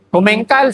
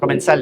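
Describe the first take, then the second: First: The middle consonant sounds like k. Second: The middle consonant sounds like s. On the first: This is how locals say the name. "sa atin kasi Comencal eh" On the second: This is how the brand's own people say it. "sa kanila pronunciation is"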